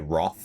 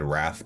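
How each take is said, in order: First: The vowel sounds like the o in 'moth'. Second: The vowel sounds like the a in 'bath'. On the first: "I like to say Roth" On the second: "I think it should be said Wrath"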